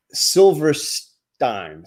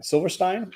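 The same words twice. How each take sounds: First: Silverstein, drawn out slowly with a falling end; testing how to say Silverstein; careful try at the name. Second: Silverstein? asked with a rising, doubtful tune; checking the name, unsure. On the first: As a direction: spell out Silverstein syllable by syllable, slowly. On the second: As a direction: ask whether Silverstein is right. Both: Shown as a demonstration. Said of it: "Am I saying it right?".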